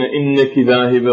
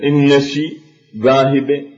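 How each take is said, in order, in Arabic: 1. الكلمة الأولى فيها صوت k، وليس sh. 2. الكلمة الأولى فيها صوت sh، وليس k. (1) "يعني يريدون إنك ذاهبة" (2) "يبدلون الكاف إلى شين"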